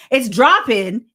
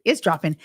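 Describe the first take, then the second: First: Higher and louder, excited; louder repeat. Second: Said in the usual way. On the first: Real, not acted. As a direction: punch it up the second time.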